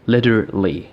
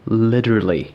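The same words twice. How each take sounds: The two takes are said the same way.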